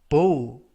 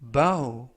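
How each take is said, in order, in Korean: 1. 이 모음은 'go'와 같은 소리예요. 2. 이 모음은 'cow'와 같은 소리예요. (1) "만약에 발음을 bow, bow 라고 발음하시면 활" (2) "bow 라고 발음하시면 되겠고요"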